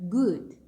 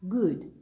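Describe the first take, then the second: Both takes have the same delivery.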